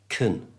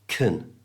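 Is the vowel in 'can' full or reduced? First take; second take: reduced; reduced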